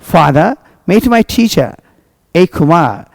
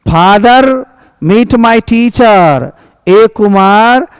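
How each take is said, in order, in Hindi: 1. r की आवाज़ नरम और हल्की है। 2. r की आवाज़ ज़ोर से दबाई गई है और खींची गई है। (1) "सॉफ्ट सॉफ्ट प्रोनाउंसिएशन अच्छी" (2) "पूरे रॉ पर में जोर मार मार के बोल रहा है"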